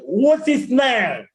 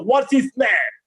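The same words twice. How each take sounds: First: "What's his name" run together, "name" stretched; corrected linking. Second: "what's his name" in separated words; usual pronunciation. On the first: Teacher modelling a question, corrected linking. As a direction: slowly link "What's his" into "wotsiz". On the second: Teacher showing the common habit, usual pronunciation. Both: Shown as a demonstration. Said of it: "We are normally pronouncing".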